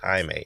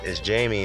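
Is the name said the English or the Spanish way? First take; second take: Spanish; English. First: The name is said with a Spanish pronunciation. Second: The name is said with an English pronunciation. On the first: The speaker calls it right. "in Latin terms, it's pronounced Jaime" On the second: The speaker calls it wrong. "as far as in, in a um, English term"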